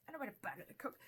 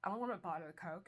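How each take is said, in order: First: Higher, lightly acted picky refusal; mock fussy refusal. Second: Said in the usual way. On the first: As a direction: refuse it like a fussy customer, pitched up.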